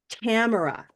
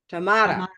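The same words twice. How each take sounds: First: The first syllable rhymes with cat. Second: The first syllable does not rhyme with cat. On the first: This is how one person with the name says it. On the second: This is how another person with the name says it. "the person in my course right now doesn't say it like that"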